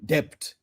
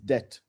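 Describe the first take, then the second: First: The word has an altered, clarifying pronunciation. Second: The word has its standard pronunciation. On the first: "so that you understand what I'm saying" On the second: "The actual pronunciation is debt"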